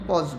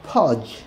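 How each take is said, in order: First: The first consonant is a plain unaspirated p. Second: The first consonant is a breathy aspirated ph. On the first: The speaker calls it wrong. "পজ বলি আর কট বলি। আসলে কিন্তু তা নয়।" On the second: The speaker calls it right. "এর সাউন্ডটা ফা, অর্থাৎ ফজ"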